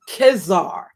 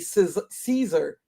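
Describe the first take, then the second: First: The word begins with a hard K sound. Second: The word begins with a soft S sound. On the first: This is the original Latin pronunciation. "I looked up the original pronunci- Latin pronunciation, and it was actually Kezar" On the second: This is how it is said today. "even though we say Caesar"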